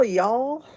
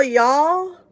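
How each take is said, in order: First: Y'all said /jɔl/ with a rise, a lightly put-on Southern twang; a hint of a Southern accent on y'all. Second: Y'all called out loud and high in a playful Southern twang; a hammed-up Southern y'all; mock Southern y'all. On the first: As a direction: tack on a friendly Southern y'all. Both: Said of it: "I'm not even Southern".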